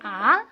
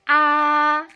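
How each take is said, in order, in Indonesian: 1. Nadanya naik dari rendah ke tinggi. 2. Nadanya datar dan lurus dari awal sampai akhir. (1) "Nada kedua bacanya naik" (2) "Nada pertama itu bacanya lurus"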